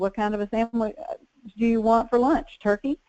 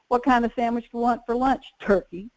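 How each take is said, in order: First: It sounds friendly, like a kind question. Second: It sounds curt, like a flat demand. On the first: The speaker is kindly offering a choice. "If you're trying to ask them" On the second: The listener takes it as unfriendly. "And they hear"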